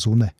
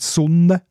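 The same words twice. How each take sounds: First: The n is short, as in Saas dialect. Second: The n is held long, as in general Valais German.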